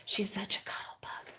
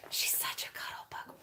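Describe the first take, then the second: First: Soft unvoiced whisper. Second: Breathy hushed whisper, even softer. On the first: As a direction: whisper so the puppy isn't disturbed. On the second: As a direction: hush it to a whisper over the dozing dog. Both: Real, not acted. Whispering about the puppy.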